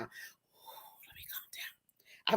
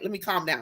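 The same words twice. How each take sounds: First: Slow, breathy whispered calm down. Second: Said in the usual way. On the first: Real, not acted. Host hushing herself after getting too excited, whispering. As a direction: whisper it slowly to yourself.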